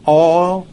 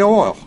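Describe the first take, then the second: First: The word is drawn out in a Texas drawl. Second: The word is said plainly and briefly. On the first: "can't you give it a kind of a Texas accent, kind of drag it out a little bit?" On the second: "I say oil"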